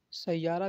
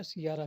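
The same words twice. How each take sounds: First: सैयारा opening on "sai", as in "sai-yaara"; variant pronunciation. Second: सियारा opening on "si", as in "si-yaara"; variant pronunciation. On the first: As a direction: say सैयारा with a diphthong in the first syllable. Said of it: "बहुत जो लोग सैयारा कहते हैं". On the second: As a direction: say सियारा with a plain i in the first syllable. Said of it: "सियारा भी कहते हैं". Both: Shown as a demonstration.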